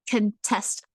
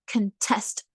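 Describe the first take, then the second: No difference in how they are said.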